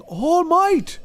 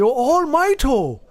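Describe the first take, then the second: First: All Might said clipped and high, with no added vowel; English pronunciation. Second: Oh, All Mighto high and slow, with an added o at the end; imitating the Japanese All Mighto; mock Japanese pronunciation. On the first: Shown as a demonstration. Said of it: "but it's just saying". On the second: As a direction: draw out All Mighto, a hint of anime announcer. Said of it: "They say".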